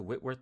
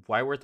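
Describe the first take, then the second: First: Whitworth with a short i, like "wit-worth"; short-i pronunciation. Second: Whitworth with a long i, like "why-worth"; alternative pronunciation. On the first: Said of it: "I think it's Whitworth". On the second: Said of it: "Is it Whitworth or Whitworth". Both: Shown as a demonstration.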